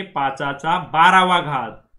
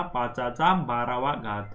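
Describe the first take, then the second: First: पाँचाचा बारावा घात said slowly, stressing बारावा; slow teaching read of पाँचाचा बारावा घात; Marathi pronunciation. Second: पाँचाचा बारावा घात repeated softer and slow; quiet slow echo of पाँचाचा बारावा घात; Marathi pronunciation. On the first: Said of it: "क्या होता ये?". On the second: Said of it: "क्या होता?". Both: Shown as a demonstration.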